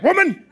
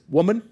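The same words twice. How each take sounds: First: It is said sharply and rudely. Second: It is said calmly and respectfully.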